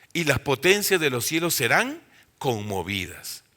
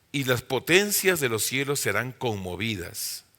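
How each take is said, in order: Both takes have the same delivery.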